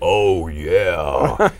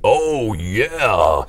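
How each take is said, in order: First: It is said in a lower, deeper voice. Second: It is said in a higher voice.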